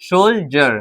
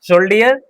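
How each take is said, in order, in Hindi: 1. बीच का व्यंजन 'j' ध्वनि है। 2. बीच का व्यंजन सामान्य 'd' ध्वनि है। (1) "तो हम डी को ज पढ़ेंगे" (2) "नहीं, गलत हो जाएगा"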